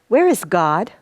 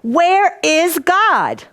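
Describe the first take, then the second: First: It is asked in a stern tone. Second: It is asked in a frustrated tone.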